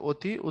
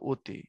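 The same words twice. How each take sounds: First: The first vowel is an open 'aw' sound. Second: The first vowel is a closed 'o' sound. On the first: "লেখার সময় অতি" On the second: "উচ্চারণ হলো অতি"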